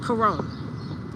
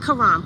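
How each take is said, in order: First: The last syllable sounds like 'rom'. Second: The last syllable sounds like 'ram'. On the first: The speaker calls it right. "That's how you say it" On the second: The speaker calls it wrong. "not Karam"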